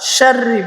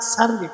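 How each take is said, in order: First: The word begins with a full sh sound. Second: The word begins with a plain s sound. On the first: The speaker calls it right. "আসুন আমরা শাররি বলবো" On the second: The speaker calls it wrong. "ছোট শিন করে"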